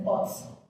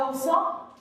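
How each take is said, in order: First: "oxo" pronounced ok-so; lower, softer "oxo" with a clear k before the s; alternative OXXO pronunciation. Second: "oxo" pronounced like oso; "oxo" with an s sound for the x; misread OXXO. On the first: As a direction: say "oxo" with a hard ks in the middle. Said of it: "o le dicen oxo". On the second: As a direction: say "oxo" with the x softened to a plain s. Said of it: "al oxo le dicen oxo". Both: Shown as a demonstration.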